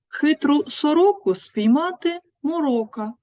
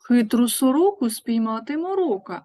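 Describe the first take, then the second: First: It is said at a slower pace. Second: It is said at a faster pace.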